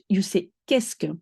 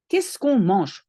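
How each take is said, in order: First: Qu'est-ce que said crisply as kesk; French phrase. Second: Qu'est-ce said as one quick kesk; French question. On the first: Teacher telling learners how to ask what in French. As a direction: model qu'est-ce que clearly. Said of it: "If you want to ask what". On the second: Teacher showing beginners how to start a question. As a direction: model the French opener. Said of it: "start with qu'est-ce que". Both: Shown as a demonstration.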